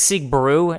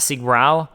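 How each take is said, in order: First: The second word ends in an oo vowel. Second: The second word ends in an ow vowel. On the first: The speaker calls it right. "Apparently, it's Sieg Brew" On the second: The speaker calls it wrong. "not Sieg Brau"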